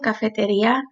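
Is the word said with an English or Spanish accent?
Spanish. It is said with a Spanish accent. "So I said that with a Spanish accent"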